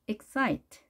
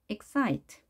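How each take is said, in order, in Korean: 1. 두 번째 음절에 강세가 있고, 첫 번째 음절은 약합니다. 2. 두 번째 음절에 강세가 있고, 첫 번째 음절은 약합니다.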